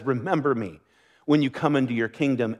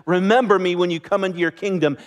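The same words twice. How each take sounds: First: Soft, humble plea; quiet plea. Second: Said in the usual way. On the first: Retold or imitated. Dying thief asks Jesus to remember him, softly. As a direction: ask it gently, like a dying man's last request.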